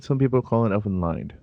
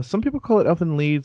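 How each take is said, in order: First: "Lied" said like English "lied". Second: "Lied" said like "leed". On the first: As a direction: say "Lied" to rhyme with "ride". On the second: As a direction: say "Lied" with a long ee, rhyming with "need". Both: Shown as a demonstration. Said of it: "two ways to pronounce it".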